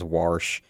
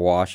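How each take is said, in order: First: It is said in a Pittsburgh accent, with an r. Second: It is said in a standard American accent.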